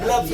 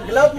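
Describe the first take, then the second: First: ग्लव्स with an s after the v; correct plural. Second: ग्लव with no final s; incorrect singular. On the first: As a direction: close ग्लव्स on a sounded s. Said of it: "ग्लव्स बोलते हैं". (ग्लव्स, अंत में स की आवाज़ के साथ) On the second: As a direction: end ग्लव on the v sound. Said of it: "ग्लव नहीं बोलते हैं". (ग्लव, अंत में स के बिना) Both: Shown as a demonstration.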